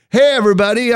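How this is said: The greeting sounds forced and fake.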